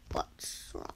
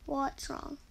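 First: Whisper. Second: Said in the usual way. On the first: Real, not acted. Asks teammate twice, whispered.

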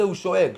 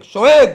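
First: Said in the usual way. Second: שואג shouted high and very loud; emphatic roar. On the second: Shown as a demonstration. Roar word repeated as a roar. (שואג בצעקה גבוהה ורמה)

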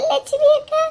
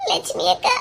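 First: High, wailing sob on the name; wailing cry. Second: Breathless whisper of a frightened woman; barely voicing the name in dread. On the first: Acted. Woman wailing the name to Selva at the hospital. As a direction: break into a mourning wail. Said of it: "ஒப்பாரி வச்சுட்டு இருக்கா". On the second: Woman whispering to Selva in fear at the hospital.

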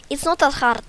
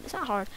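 First: Loud, high put-on Russian accent. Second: Said in the usual way. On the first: Shown as a demonstration. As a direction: insist in a mock Russian accent. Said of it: "gonna just talk in Russian accent". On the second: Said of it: "Talking in Russian accent is so hard".

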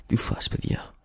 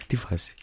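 First: Unvoiced whisper of "Τι φάση, παιδιά. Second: Hushed. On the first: Breathe "Τι φάση, παιδιά. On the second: Pretend. Hushed greeting, repeated.

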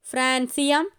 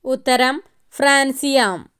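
First: francium with a light rise; one choice in the list; soft rising option. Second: francium stressed, firm fall; answer reveal. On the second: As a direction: declare it correct. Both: Shown as a demonstration.

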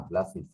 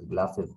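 First: গ্লাসেস ending in "-is", like "glass-iss"; teacher's corrected "glass-iss" for গ্লাসেস; corrected pronunciation. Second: গ্লাসেস ending in "-es", like "glass-ess"; learner's "glass-ess" for গ্লাসেস; common mispronunciation. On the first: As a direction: say গ্লাসেস with a short i in the last syllable. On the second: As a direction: say গ্লাসেস with an open e in the last syllable. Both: Shown as a demonstration. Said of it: "না".

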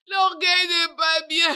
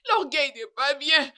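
First: "L'orgueil n'est pas bien" cried out louder through sobs; sobbing cry of regret; crying shout. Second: Said in the usual way. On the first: Acted. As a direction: wail it out in tears. Same line repeated, then cried.

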